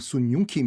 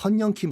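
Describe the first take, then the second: First: The name is said as Sun-yung Kim. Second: The name is said as Seon-yeong Kim. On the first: The speaker calls it wrong. "이 친구들이 발음을 못 하는 거예요" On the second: The speaker calls it right. "선영킴을 했었어요"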